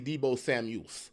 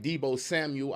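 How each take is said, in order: First: The surname ends with an added s sound. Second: The surname ends without an s sound. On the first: The speaker calls it wrong. "I add the S on the end" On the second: The speaker calls it right. "I think I said that right"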